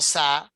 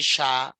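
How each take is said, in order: First: It begins with a hissing s sound. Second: It begins with a hushing sh sound. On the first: The speaker calls it wrong. "No sa" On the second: The speaker calls it right. "It's gonna be sha"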